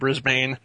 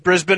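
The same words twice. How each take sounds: First: It is said slowly with a full ending. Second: It is said quickly with a reduced ending. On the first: This is how outsiders say it. The speaker calls it wrong. "Not Melbourne and Brisbane" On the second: This is how locals say it. The speaker calls it right. "That's how they say it in Australia"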